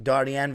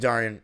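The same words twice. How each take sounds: First: The name is said with Iranian pronunciation. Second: The name is said with English pronunciation. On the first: This is the authentic original form of the name. "That's the Iranian way" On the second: This is an acceptable everyday form of the name. "you can call me Darian"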